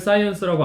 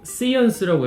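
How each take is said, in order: First: The first vowel sounds like 'eye'. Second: The first vowel sounds like 'ee'. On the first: The speaker calls it right. "사이언스라고 안 하시고" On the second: The speaker calls it wrong. "시언스라고 이렇게 말씀을 하신다거나"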